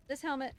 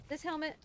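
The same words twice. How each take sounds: The two takes are said the same way.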